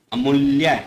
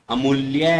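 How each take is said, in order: First: अमूल्य with a short u. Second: अमूल्य with a long oo. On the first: Teacher shows the misspelt अमूल्य with short u. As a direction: say अमूल्य as "a-mul-ya". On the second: Teacher models correct अमूल्य with long oo. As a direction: say अमूल्य as "a-mool-ya". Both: Shown as a demonstration. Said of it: "छोटा ऊ और बड़े ऊ का फर्क".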